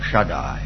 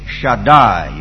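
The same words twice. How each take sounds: First: The stress is on the first syllable. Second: The stress is on the last syllable. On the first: The speaker calls it wrong. "not Shaddai" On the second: The speaker calls it right. "Hebrew words are accented on the last syllable. You should say Shaddai"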